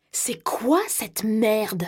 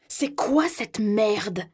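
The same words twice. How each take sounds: First: Hissed under the breath, slow; threatening whisper, drawn out; whispered menace. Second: Slow, drawn-out furious question; a touch of a shout in his rage; yelled demand. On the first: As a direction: spit it out in a whisper. Same quote, now whispered. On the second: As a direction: bark it out in disbelief. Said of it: "hurle-t-il". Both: A narrator's reading.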